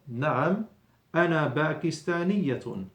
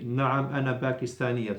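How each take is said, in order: First: There is a pause after the first word. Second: It runs on without a pause after the first word.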